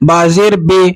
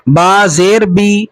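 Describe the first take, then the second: First: بے ending in an "ay" sound; majhul vowel. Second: Slow recital, بی as a clear "bee"; teacher spelling out با زیر بی slowly with "ee"; ma'ruf vowel. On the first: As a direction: show the faulty reading, "bay" for بے. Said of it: "تو یہ مجہول ہو جائے گا". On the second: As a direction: stretch it out, ending بی on pure "ee". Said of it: "یعنی اس طریقے سے پڑھا جائے". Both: Shown as a demonstration.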